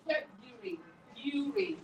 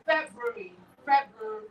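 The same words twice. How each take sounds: First: American "February" as FEB-yu-ree; American pronunciation. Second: British "February" with the first r sounded; British FEB-ru-ree for "February"; British pronunciation. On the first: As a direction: drop the first r of "February", American way. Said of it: "When in America". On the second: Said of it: "So in British". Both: Shown as a demonstration.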